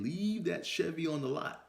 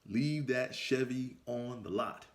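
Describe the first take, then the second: First: Repeated higher. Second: Each word laid down slowly, Leave leaned on; slow and deliberate. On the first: Repeating the warning to his younger self, higher. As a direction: Leave pitched up high, urgent repeat. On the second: Warning his younger self, slow and deliberate. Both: Shown as a demonstration. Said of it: "Let me say that again".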